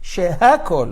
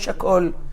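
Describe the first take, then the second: First: The middle h sound is clearly pronounced. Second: The middle h sound is dropped entirely. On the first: The speaker calls it right. "Where is the hey? Shehakol" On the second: The speaker calls it wrong. "not shakol"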